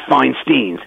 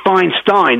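First: The last syllable sounds like 'steen'. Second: The last syllable sounds like 'stine'. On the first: The speaker calls it wrong. "not Feinstein" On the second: The speaker calls it right. "it's Feinstein"

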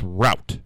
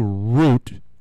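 First: It does not sound like the plant word. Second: It sounds like the plant word root. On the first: This is the way it really is. The speaker calls it right. "but really it's route" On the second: This is the common way people say it. The speaker calls it wrong. "People say root, like a root of a plant"

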